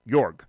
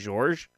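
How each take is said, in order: First: The name starts with a Y sound. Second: The name starts with a J sound. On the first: The speaker calls it right. "I can pronounce it like York" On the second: The speaker calls it wrong. "I think I kept saying George"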